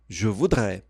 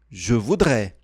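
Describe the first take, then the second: Both takes have the same delivery.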